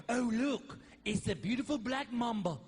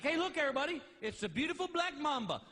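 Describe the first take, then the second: First: Lightly put-on TV snake handler voice; mock snake-show host; snake guy. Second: Higher-pitched pretend animal show host; mock cheerful TV presenting; himself as show host. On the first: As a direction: admire a deadly snake like a wildlife host. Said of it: "My favorite guys are the snake guys". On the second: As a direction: present the snake to everybody in his own accent. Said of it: "'Cause I'd be like".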